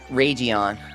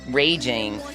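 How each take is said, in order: First: It does not sound like the word raging. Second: It sounds like the English word raging. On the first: The speaker calls it wrong. "not Ragion?" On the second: The speaker calls it right. "Shouldn't Ragion be pronounced raging"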